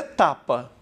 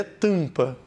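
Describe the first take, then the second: First: TAPA with a clear oral first A. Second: TAMPA with the first A through the nose; nasal A. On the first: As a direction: keep the nose out of TAPA's vowels. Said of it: "esse A não está nasalizado". ("tapa" sem nasalizar o A) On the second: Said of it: "esse A tá nasalizado". ("tampa" com A nasal) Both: Shown as a demonstration.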